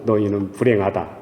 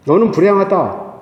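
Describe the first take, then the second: First: Said in the usual way. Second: 너는 pitched high and firm, as a direct address; stress on 너는. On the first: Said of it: "너희라는 이런 표현보다도". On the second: Shown as a demonstration. Preacher making the verse personal, 너는 stressed high. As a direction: hit 너는 hard, then let the pitch fall. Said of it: "너 이렇게 할 적에 더 확실하죠".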